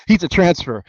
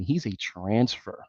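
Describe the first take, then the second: First: Higher, louder punchline; host driving home the point to viewers; emphatic repeat. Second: Softer, slow dry remark under the breath; host muttering a dry fact; quiet aside. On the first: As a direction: hit it again for effect. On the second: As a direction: drop it low and slow. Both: Real, not acted. Repeats the line after laughing.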